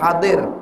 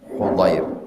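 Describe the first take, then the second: First: The name begins with a 'ha' sound. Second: The name begins with a 'hu' sound. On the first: The speaker calls it wrong. "Dari hadir, salah" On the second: The speaker calls it right. "haknya tidak bertitik, dibaca dhammah"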